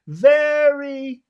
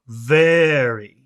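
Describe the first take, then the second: First: The word is said on a high pitch. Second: The word is said on a low pitch. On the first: The matter is happy or positive. "if it's happy or good or positive, you make it high" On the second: The matter is serious. "if it's serious, you make it low"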